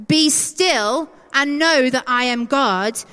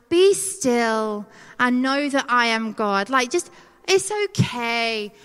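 First: Slow, emphatic proclamation; firm command. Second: Gentle reassurance. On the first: Acted. God commanding us to stop, firm and weighty. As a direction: declare it as God's order, each phrase weighted. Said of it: "is God commanding us to stop". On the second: Retold or imitated. Sending a verse to struggling friends, gently reassuring. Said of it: "sending friends who are going through it. I'm like".

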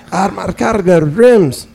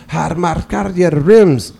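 First: Slow imitated Armenian accent, higher; repeating the greeting in an Armenian accent. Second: Slow imitated Armenian accent; imitating a gas station stranger's Armenian accent. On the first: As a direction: repeat it slowly in the same thick Armenian accent. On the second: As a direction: drawl it out in a heavy Armenian accent. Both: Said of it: "he immediately went into an urban accent".

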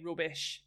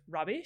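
First: "rubbish" said as the flatmate from the UK says it; imitated regional pronunciation. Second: Said in the usual way. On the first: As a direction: mimic a friend's regional vowel on "rubbish". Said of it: "She would say rubbish instead of rubbish". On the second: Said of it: "instead of rubbish".

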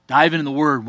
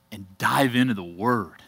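First: Louder, punching the word "Dive"; emphatic repeat. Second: Said in the usual way. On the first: Real, not acted. Pastor urging the congregation to the Bible, emphatic and louder. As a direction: hammer home "Dive into the Word". Preacher repeats his charge.

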